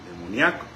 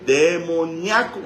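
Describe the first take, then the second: First: Said in the usual way. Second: Demoníaco drawn out slow, loud and high; emphatic answer. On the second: Acted. Preacher answers his own question, Demoníaco slow and loud. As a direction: land Demoníaco slowly like a verdict. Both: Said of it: "¿cómo?".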